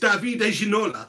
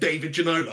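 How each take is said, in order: First: The first name has a French pronunciation. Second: The first name has an English pronunciation. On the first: This is how the name is properly said. The speaker calls it right. "It's Davide Ginola" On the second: This is how people in England say it. The speaker calls it wrong. "but we call him David Ginola"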